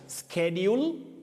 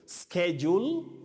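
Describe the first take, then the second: First: The word has the American pronunciation. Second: The word has the American pronunciation.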